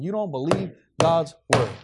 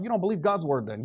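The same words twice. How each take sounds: First: "You don't believe God's word" broken by pauses, word by word; emphatic spaced-out repeat. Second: Said in the usual way. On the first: Real, not acted. Preacher rebuking the overconfident, "God's word" spaced out emphatically.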